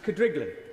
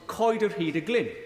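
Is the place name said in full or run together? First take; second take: run together; full. First: The name is squeezed into three quick syllables. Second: Every part of the name is said separately.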